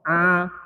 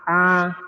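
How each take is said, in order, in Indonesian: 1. Bunyinya keluar melalui hidung. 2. Bunyinya keluar melalui hidung.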